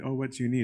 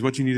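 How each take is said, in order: First: Gentle, kindly asked question. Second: Curt, contemptuous demand, slightly louder. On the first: Shown as a demonstration. A kind host to a guest, gently offering help. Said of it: "is not a kind". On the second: Retold or imitated. Nasser to the Pope, demanding with open contempt. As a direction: snap the question out with disdain. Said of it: "It's contempt".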